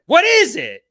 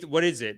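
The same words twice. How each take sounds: First: The question is asked in a harsh, aggressive tone. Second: The question is asked in a calm, polite tone. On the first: The speaker is hostile and demanding. The speaker calls it wrong. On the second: The speaker is curious and means no offense. The speaker calls it right.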